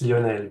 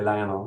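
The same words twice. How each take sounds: First: The name is said the French way. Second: The name is said the American way.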